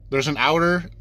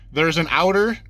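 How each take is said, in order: Both takes have the same delivery.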